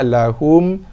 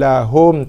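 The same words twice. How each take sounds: First: The vowel in 'hum' sounds closed, like 'hu'. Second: The vowel in 'hum' sounds open, like 'ho'. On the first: The speaker calls it right. "Kita nak lahum" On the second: The speaker calls it wrong. "Tak mau"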